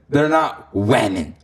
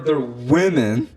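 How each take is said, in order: First: The first vowel is an 'eh' sound. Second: The first vowel is not an 'eh' sound. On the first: The speaker calls it wrong. "it's like you're eh" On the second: The speaker calls it right.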